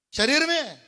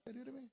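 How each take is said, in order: First: శరీరమే said loud and high, punched out; emphatic. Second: Hushed. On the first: Pastor answering his own question, శరీరమే loud and emphatic. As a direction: hit శరీరమే hard and loud. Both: Shown as a demonstration. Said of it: "పాపం దేంతో చేస్తామండి?".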